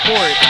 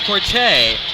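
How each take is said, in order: First: The name is said as one syllable, 'court'. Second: The name ends with an extra vowel syllable. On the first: The speaker calls it wrong. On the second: The speaker calls it right.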